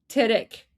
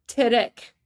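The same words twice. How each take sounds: No difference in how they are said.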